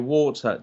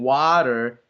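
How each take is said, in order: First: It is said with a British accent. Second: It is said with an American accent.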